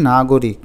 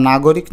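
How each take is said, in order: First: নাগরিক with a rounded middle vowel, "nagorik". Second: নাগরিক with an open middle vowel, "nagawrik"; as written. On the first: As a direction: close "o" after the g in নাগরিক. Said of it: "গকে গোর মতো করে বলি". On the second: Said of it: "নাগরিক না বলে বলি নাগরিক". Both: Shown as a demonstration.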